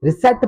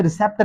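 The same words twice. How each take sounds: First: रिसेप्ट said risit, P dropped; रिसेप्ट like receipt, P silent. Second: रिसेप्ट with the P before T spoken; रिसेप्ट as the wrong reading; sounded P. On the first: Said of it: "रिसेप्ट पढ़ेंगे क्योंकि यहाँ पर भी पी silent". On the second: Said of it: "इसे रिसेप्ट नहीं पढ़ेंगे". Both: Shown as a demonstration.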